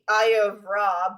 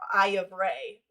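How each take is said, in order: First: The last word ends in an 'ah' vowel. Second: The last word ends in an 'ay' vowel. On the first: The speaker calls it wrong. "people call it um the Eye of Ra" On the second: The speaker calls it right. "apparently it's pronounced our Eye of Ray"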